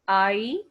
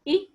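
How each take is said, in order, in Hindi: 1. स्वर एक लंबी, फिसलती हुई ध्वनि है। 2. स्वर एक छोटी, कटी हुई ध्वनि है। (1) "हम उनकी नेम बता रहे हैं" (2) "आप इनकी sound निकालेंगे"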